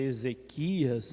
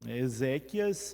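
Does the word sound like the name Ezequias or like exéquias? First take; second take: Ezequias; exéquias. First: It sounds like the personal name Ezequias. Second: It sounds like the liturgical word exéquias. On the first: It names a person. The speaker calls it wrong. "pronunciar de modo até errado essa palavra. Já vi muita gente dizer Ezequias" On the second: It names a funeral celebration. The speaker calls it right. "é uma celebração da liturgia"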